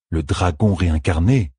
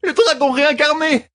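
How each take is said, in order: First: Said in the usual way. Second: Very high frightened shout on dragon; fleeing woman names the monster in panic; panicked cry. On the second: A narrator's reading. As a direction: fling out the name in terror. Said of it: "cria la fugitive".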